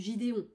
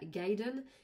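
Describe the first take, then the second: First: The name is said with a French accent. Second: The name is said with an English accent. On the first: "si je le dis à la française" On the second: "si je le dis à l'anglaise"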